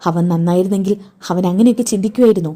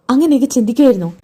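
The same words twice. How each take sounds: First: Said in the usual way. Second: Angry insistent repeat of അങ്ങനെയൊക്കെ ചിന്തിക്കുമായിരുന്നോ. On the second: Acted. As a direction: press the question, demanding an answer.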